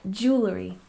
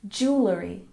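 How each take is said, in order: The two takes are said the same way.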